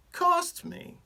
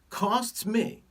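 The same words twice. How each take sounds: First: "costs" jumps much higher, stressed hard; emphatic repeat. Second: Said in the usual way. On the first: Shown as a demonstration. Doctor stressing the tiny antibiotic cost, "costs" pitched high. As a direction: hit "costs" way up high the second time.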